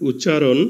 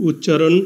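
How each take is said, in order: Both takes have the same delivery.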